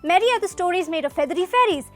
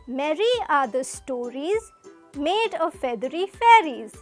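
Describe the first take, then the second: First: It is read fast. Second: It is read slowly.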